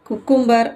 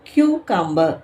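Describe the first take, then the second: First: The word begins with a plain 'koo' sound. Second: The word begins with a 'kyoo' sound. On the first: The speaker calls it wrong. "But ஆனால் அது correct கிடையாது" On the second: The speaker calls it right. "இது எப்படி சொல்லணும் அப்படின்னு பார்த்தீங்கன்னா"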